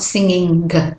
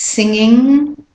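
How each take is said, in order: First: A hard g sound is added at the end. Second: It ends in ng with no hard g. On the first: The speaker calls it wrong. "It's not singing g" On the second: The speaker calls it right. "It's singing"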